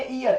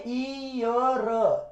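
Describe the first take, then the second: First: ईयर said as a wrong, exaggerated "eeyar"; teacher mocks the wrong reading of ईयर; wrong pronunciation. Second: ईयर stretched very slowly as a long "eee-yar"; teacher slowly stretches the wrong ईयर; wrong, drawn out. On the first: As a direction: ham up the mistaken ईयर. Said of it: "ऐसे वाला नहीं". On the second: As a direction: drag ईयर out to show the error. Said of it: "ईयर नहीं, ये गलत है". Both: Shown as a demonstration.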